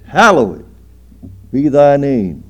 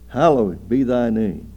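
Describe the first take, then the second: First: Booming, drawn-out declaration; loud and high; loud proclamation. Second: Said in the usual way. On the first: Real, not acted. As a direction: proclaim it to the back pew. Preacher declaims the prayer line.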